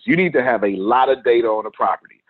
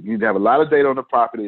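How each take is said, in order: First: Said in the usual way. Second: Fast rushed repeat. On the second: Shown as a demonstration. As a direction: rattle it off quickly. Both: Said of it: "you just do".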